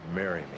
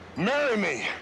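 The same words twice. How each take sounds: First: It is said quietly and flatly. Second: It is said loudly, with strong feeling.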